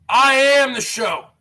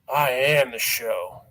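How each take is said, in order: First: Said in the usual way. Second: Deep growl. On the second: Acted. Catchphrase repeated, voice dropped.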